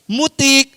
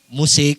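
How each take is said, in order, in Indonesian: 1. Konsonan tengahnya bunyi t. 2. Konsonan tengahnya bunyi s. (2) "musik maksudnya"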